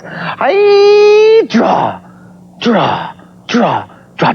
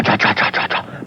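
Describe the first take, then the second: First: Sung, belt it out as you sweep the pencil; sung, sing-song draw. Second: Softer and softer whispered chant; fading whisper. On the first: Demo of swooshing action lines. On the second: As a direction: let it die away to a whisper. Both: Shown as a demonstration.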